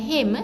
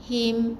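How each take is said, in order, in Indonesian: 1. Vokalnya diucapkan dengan gaya Melayu. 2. Vokalnya bunyi 'i' Arab yang jelas.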